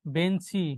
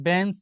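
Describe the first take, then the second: First: "বেঞ্চি" as ben-si, ending on i; added final vowel. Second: Said in the usual way. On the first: Shown as a demonstration. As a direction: finish "বেঞ্চি" with a clear i sound. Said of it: "একটা রস্যইকার আসছে". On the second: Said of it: "যদি আমরা একটা শব্দ দেখি".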